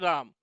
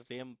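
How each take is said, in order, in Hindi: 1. स्वर एक लंबा खुला 'ah' है। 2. स्वर एक आगे का 'eh' है। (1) "नए वाले बच्चे पढ़ दोगे राम" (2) "कंप्यूटर की भाषा में इसे रेम पढ़ते हैं"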